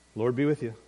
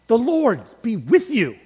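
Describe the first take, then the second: First: It is said in a casual, offhand way. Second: It is said with passionate enthusiasm.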